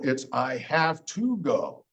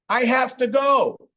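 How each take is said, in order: First: Each word is said fully and separately. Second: The words are reduced and run together.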